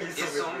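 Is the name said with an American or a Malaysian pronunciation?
Malaysian. The name is said with a Malaysian pronunciation. "if Malaysian"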